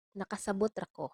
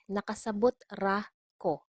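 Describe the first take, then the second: First: Said in the usual way. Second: "Nakasabot ra ko" with pauses round "ra"; word-by-word model. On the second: Shown as a demonstration. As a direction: set "ra" and "ko" apart, clearly. Teacher separates words, then repeats.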